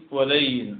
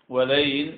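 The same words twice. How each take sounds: No difference in how they are said.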